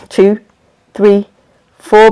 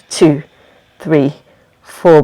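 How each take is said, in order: First: Evenly spaced count on a level pitch; inhale count. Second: Low, evenly spaced count; exhale count. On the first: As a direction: count an in-breath, leaving gaps. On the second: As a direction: count the breath out on a lowered pitch. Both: Shown as a demonstration.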